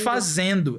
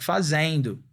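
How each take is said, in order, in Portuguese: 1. A vogal tônica é uma vogal simples só. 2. A vogal tônica desliza para um som extra de i. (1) "Não é" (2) "é"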